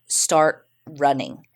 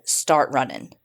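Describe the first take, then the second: First: "Start running" drawn out slowly, each word spaced; slow, insistent repeat. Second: Said in the usual way. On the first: Retold or imitated. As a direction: repeat the order slowly and firmly, like they mean it. Kidnappers repeat the order.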